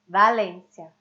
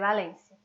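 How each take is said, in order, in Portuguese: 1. O som do v é pronunciado com mais força. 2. O som do v é pronunciado suavemente e de leve. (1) "mais de força quando é inicial" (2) "no meio da frase, ela vai ser suave"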